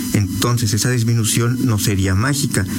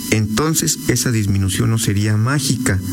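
No difference in how they are said.

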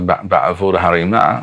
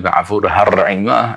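First: The r sound is weak and swallowed. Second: The r sound is stressed and strongly trilled. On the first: The speaker calls it wrong. "the resh doesn't come out very clearly" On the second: The speaker calls it right. "everything is very clear"

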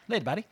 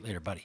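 First: It is said in a South Park character voice. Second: It is said in the speaker's plain voice.

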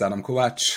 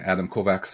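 First: The surname is said in a non-American way. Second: The surname is said the American West Coast way.

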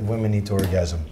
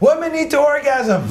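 First: It is said at a normal, quiet volume. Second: It is said louder.

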